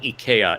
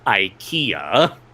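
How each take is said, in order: First: It is said the way Japanese learners say it. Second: It is said the way Americans say it. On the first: The speaker calls it wrong. "occasionally they'll pronounce things wrong" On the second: The speaker calls it right. "here in in good old U S of A, we say IKEA"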